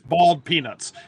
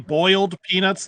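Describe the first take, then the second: First: Boiled sounds like bald, Southern style. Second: Boiled is said with a full oi sound.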